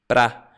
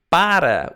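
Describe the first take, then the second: First: The word shrinks to a single syllable. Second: The word has two full syllables.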